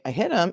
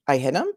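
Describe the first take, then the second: First: The voice falls at the end like a statement. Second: The voice rises at the end like a question.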